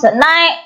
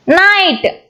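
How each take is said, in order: First: "Night" broken as nai, t; attempted split. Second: Said in the usual way. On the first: Shown as a demonstration. Teacher testing if it splits, "Night" with its end broken off. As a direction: say "Night" with the final t detached. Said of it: "we cannot". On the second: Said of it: "you cannot split your sounds".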